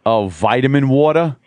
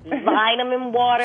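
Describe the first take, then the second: First: "vitamin water" with a flapped d, vaɪdəmɪn wɔtə˞; mock American accent, lightly done; cheesy American accent. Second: "Vitamin water" as ˈvɪtəmɪn wɔːtə, slow and louder; slow British "Vitamin water"; British pronunciation. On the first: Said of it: "make it sound really cheesy, dirty American". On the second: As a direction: say "Vitamin water" the English way, slowly. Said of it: "say it". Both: Shown as a demonstration.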